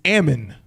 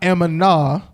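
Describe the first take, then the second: First: The word ends on a consonant, no vowel. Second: The word ends with an added vowel sound. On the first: The speaker calls it right. "there's no vowel afterwards" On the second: The speaker calls it wrong. "It's not Ammonah"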